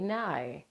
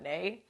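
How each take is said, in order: First: The vowel sounds like the one in 'eye'. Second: The vowel sounds like the one in 'day'. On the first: The speaker calls it right. "Call me Nye" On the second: The speaker calls it wrong. "don't walk up to me and say, what's up, Nay?"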